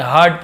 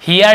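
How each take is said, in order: First: Said in the usual way. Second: Hear said as "hee-ar", the mistaken reading of heard; wrong pronunciation. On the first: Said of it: "heard पढ़ेंगे". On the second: Shown as a demonstration. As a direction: misread heard like Hear, with an ee vowel. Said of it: "Hear नहीं पढ़ेंगे".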